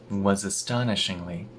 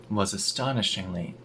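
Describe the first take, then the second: Both takes have the same delivery.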